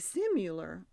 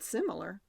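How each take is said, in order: First: The middle vowel sounds like 'u'. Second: The middle vowel sounds like 'i'. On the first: The speaker calls it wrong. "but I say similar, so I'm wrong. And I would have spelled it with the U" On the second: The speaker calls it right. "you said it right there. You said similar"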